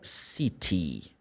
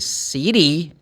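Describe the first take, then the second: First: The middle consonant sounds like a clear T. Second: The middle consonant sounds like a soft D. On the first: "Or city. It's not a problem" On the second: "as American. They put like a D sound"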